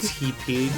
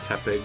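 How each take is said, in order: First: The name sounds like 'tea' plus 'pig'. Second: The name's first part sounds like 'tep' in tepid. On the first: The speaker calls it wrong. "not Tepig" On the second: The speaker calls it right. "as in tepid"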